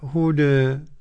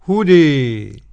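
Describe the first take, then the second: First: The final vowel is slightly fronted toward 'e'. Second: The final vowel is strongly fronted toward 'e'. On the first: "والتقنين ورش" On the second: "وقرأها بالإمالة الكبرى"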